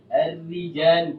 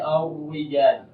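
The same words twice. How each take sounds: First: The r is thin with lips drawn down. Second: The r is rounded, sounding close to w. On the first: The speaker calls it right. "tidak terangkat ini bibir kita" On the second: The speaker calls it wrong. "Tidak dibaca wi"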